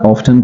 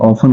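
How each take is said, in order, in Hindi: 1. यह शब्द t की आवाज़ के साथ बोला जाता है। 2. यह शब्द बिना t की आवाज़ के बोला जाता है। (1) "आप ऑफ्टन कहते हैं" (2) "ऑफन होना चाहिए"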